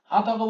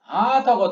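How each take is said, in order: First: The first syllable is short and not drawn out. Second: The first syllable is long and drawn out. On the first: The speaker calls it wrong. "হা থাকো বললে মেলে না, ভাল লাগে না" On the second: The speaker calls it right. "দেখো হা থাকো হাটাকে কত দূর টানছি আমি"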